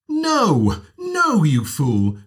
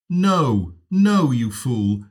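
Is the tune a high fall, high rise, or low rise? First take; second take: high fall; low rise. First: The voice starts high and falls. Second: The voice starts low and rises. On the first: "high fall" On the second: "low rise"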